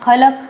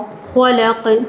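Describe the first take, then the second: First: The kh is light, with a thin a vowel. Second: The kh is heavy, sounding close to khau. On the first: The speaker calls it wrong. "हम इसे पढ़ते हैं खा, खलक नहीं होता" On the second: The speaker calls it right. "क्या होता है? खौ"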